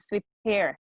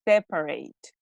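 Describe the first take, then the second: First: The word ends without a final t sound. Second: The word ends with a clear t sound. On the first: The speaker calls it wrong. "She mentioned separe" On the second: The speaker calls it right. "So it is separate"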